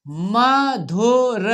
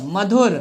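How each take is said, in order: First: Madhur découpé lentement, syllabe par syllabe; lecture syllabée. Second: Said in the usual way. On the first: Shown as a demonstration. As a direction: fais durer chaque syllabe de Madhur. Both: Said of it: "हमारे साथ पढ़ना है आपको".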